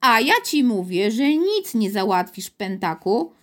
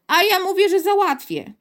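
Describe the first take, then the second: First: Mild mock yell from a guard; understated shout, easing at the end; angry yell. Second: Put-on high, loud stubborn boy; insistent childish comeback; defiant repetition. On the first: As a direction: put the boy down firmly. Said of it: "wrzasnął strażnik". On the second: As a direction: throw it back at a higher pitch. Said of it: "powtórzył Piotr". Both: A narrator's reading.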